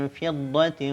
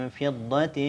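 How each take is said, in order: Both takes have the same delivery.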